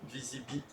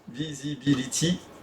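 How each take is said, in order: First: Some syllables of the word are dropped. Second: Every syllable of the word is pronounced. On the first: The speaker calls it wrong. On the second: The speaker calls it right.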